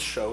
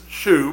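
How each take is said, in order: First: The word is said with an 'oh' vowel. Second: The word is said with an 'oo' vowel. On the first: "It means show, so allow me to say it that way" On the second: "it says shoe"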